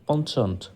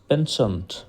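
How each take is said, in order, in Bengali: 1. মাঝের ব্যঞ্জনটি একটি 'ch' ধ্বনি। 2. মাঝের ব্যঞ্জনটি একটি 'sh' ধ্বনি। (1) "আমাদেরকে এটা পড়ানো হয়েছে পঞ্চন্ট" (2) "এখানে তারা বলে পেনশন্ট"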